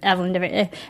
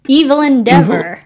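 First: The name is said casually in its usual way. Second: The name is sounded out carefully, part by part. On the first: The name is just an ordinary name. The speaker calls it wrong. "I've actually been mispronouncing it" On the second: The name hints at the character's nature. The speaker calls it right. "It's pronounced Evelyn Deaver"

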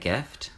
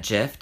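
First: The G is hard, as in go. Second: The G is soft, like a J. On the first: This is the usual way of saying it. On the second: This imitates someone else's quirky way of speaking.

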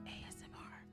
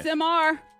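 First: It is said softly, almost whispered. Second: It is said loudly.

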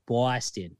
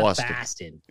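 First: The first vowel sounds like 'aw'. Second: The first vowel sounds like 'ah'. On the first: The speaker calls it right. "it's B-A-W, like Boston" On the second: The speaker calls it wrong. "not Boston"

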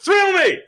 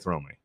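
First: The phrase is shouted loudly and excitedly. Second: The phrase is said in a plain, normal voice. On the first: The speaker calls it right. "You have to say it like that" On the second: The speaker calls it wrong. "You can't just say Thrill Me"

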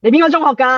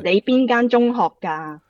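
First: The phrase is said fast. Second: The phrase is said slowly.

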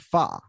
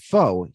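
First: The vowel sounds like 'ah'. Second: The vowel sounds like 'oh'. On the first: The speaker calls it wrong. "He calls it fa" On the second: The speaker calls it right. "mispronounces foe"

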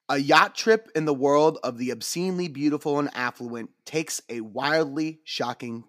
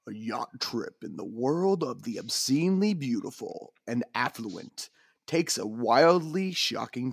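First: It is read in a plain, normal speaking voice. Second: It is read in a dramatic movie-trailer narrator voice.

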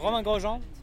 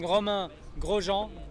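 First: The name is said fast as one word. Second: The name is said slowly in separate parts. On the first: The speaker calls it right. "It's all one word" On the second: The speaker calls it wrong. "then it gets messy"

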